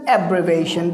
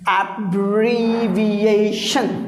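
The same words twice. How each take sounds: First: The ending is said without an 'sh' sound. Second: The ending is said with an 'sh' sound. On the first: The speaker calls it wrong. "Now it's not abbreviation" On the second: The speaker calls it right. "it's sh"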